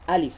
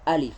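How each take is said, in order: No difference in how they are said.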